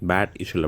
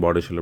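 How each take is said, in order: First: The first word is said like 'bed'. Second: The first word is said like 'bart'. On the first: This follows how the name is written. "பேட் இஷல் அப்படின்னு எழுதியிருக்கோம்" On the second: This is how local people say the name. "இங்கே ப்ரொனவுன்ஸ் பண்ணுறது வந்து பாட் இஷல்"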